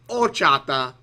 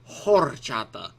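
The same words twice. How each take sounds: First: The word starts with no H sound. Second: The word starts with a breathy H sound. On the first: The speaker calls it right. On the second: The speaker calls it wrong.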